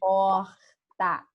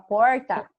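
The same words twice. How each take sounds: First: It is said with a Rio accent, scraped r. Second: It is said with a São Paulo caipira accent.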